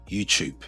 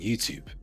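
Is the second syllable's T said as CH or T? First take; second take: CH; T. First: The second syllable starts with a CH sound. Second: The second syllable starts with a plain T sound.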